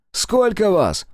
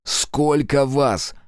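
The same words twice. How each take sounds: First: High loud demand called across; shouted question. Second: Slow, measured, cold repeat of the question; repeated, colder. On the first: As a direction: bark the question at him. First time asking, shouted. (громкий требовательный вопрос) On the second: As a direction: ask again, ignoring his screams. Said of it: "повторил я свой вопрос". (холодно и медленно повторить вопрос) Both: Acted.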